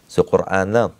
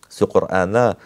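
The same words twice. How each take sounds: The two takes are said the same way.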